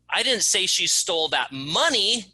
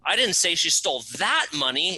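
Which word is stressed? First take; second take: money; that. First: The word "money" is stressed. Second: The word "that" is stressed. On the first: Something other than money was stolen. "It wasn't the money she stole, it was that box of pencils" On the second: Different money was stolen. "It wasn't that money, it was a different bucket of money she stole"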